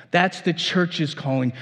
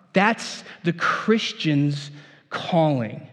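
First: Said in the usual way. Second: Weighty pronouncement; emphatic slow statement. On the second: Shown as a demonstration. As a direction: lean on each word slowly.

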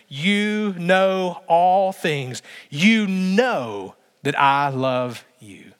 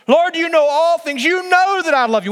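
First: Very slow, drawn-out confession; a slow broken reply; slow grieved plea. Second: Much higher and louder declaration; a loud, fervent confession; impassioned cry. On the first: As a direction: let Peter's hurt stretch every word. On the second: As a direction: shout the love out. Peter's climactic reply, loud. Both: Pretend.

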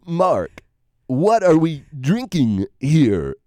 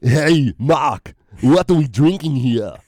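First: A light take on Walken's halting cadence, slowed down; a hint of Christopher Walken, slow and deadpan; lightly voiced Walken impression. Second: A hint of Arnold, pushed out punchy; lightly voiced Austrian action-hero impression; Arnold Schwarzenegger. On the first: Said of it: "I wanna hear Christopher Walken". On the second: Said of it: "do your Arnold Schwarzenegger".

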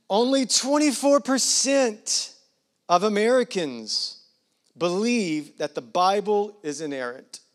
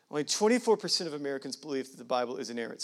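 First: Slow, loud and high start, easing down; big deliberate delivery that settles toward the end; emphatic announcement. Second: Fast, matter-of-fact repeat; rapid, low-key recap; quick restatement. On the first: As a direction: proclaim the key figure with weighty pauses. Key statistic announced, then repeated. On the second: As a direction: run through it briskly in one breath. Same statistic repeated quickly. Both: Real, not acted.

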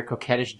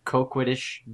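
First: Coquettish said as koh-KET-ish; correct pronunciation. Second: Coquettish said as koh-KWIT-ish; mispronounced. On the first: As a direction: coquettish with a clean k-e-t. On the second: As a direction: coquettish with a wrong kw sound. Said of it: "Hey, listen, I know that I". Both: Real, not acted.

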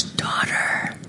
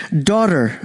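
First: "Daughter," breathed in a soft whisper. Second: Tender. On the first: Acted. Jesus calling the woman, whispered "Daughter,". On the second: Shown as a demonstration. Jesus addressing the healed woman, low tender "Daughter.". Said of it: "And he says it like this".

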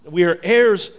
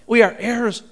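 First: Said in the usual way. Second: "heirs" proclaimed with a higher pitch; emphatic repeat. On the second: Real, not acted. Preacher urging the congregation to grasp it, "heirs" raised emphatically. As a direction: drive home "heirs" with a lifted, emphatic voice.

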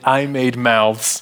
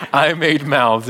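First: Slow, deliberate I made mouths; slow emphatic God. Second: Said in the usual way. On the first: Acted. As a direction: spell it out to Moses word by word. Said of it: "To which God says".

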